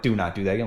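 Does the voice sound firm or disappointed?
firm. The voice sounds firm and authoritative.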